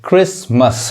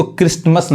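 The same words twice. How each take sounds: First: क्रिसमस said "kris-mas", no t; silent T. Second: क्रिसमस said "krist-mas", with an added t; wrong pronunciation. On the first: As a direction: go from s straight to m in क्रिसमस. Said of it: "ये टी नहीं पढ़ाता है". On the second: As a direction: sound a T after the s in क्रिसमस. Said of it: "ये इसको क्रिसमस नहीं कहेंगे". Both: Shown as a demonstration.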